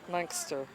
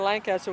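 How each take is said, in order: First: The name is said with two syllables, Lank-ster. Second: The name is said with three full syllables. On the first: The speaker is from the town. The speaker calls it right. "L A N K S T E R" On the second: The speaker is not from the town. The speaker calls it wrong. "if you say Lancaster, we know you're not here"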